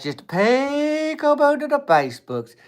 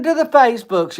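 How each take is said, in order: First: Very high and slow, stretched sing-song; a lingering high "Just peekaboo to the Facebooks"; drawn-out peekaboo. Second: High, loud playful call; a high teasing peekaboo to the Facebooks; sing-song peekaboo. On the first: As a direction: draw it out high like a lullaby tease. Repeats the peekaboo line stretched out. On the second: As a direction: sing it out like popping up from behind a hill. Mock net-surfer calling out. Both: Pretend.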